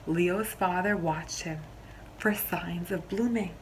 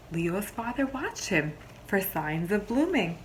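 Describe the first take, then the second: No difference in how they are said.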